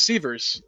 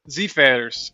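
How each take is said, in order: First: The name is pronounced the English way. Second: The name is pronounced the German way. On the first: "my last name's Sievers" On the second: "if you uh, ask the Germans how to pronounce it"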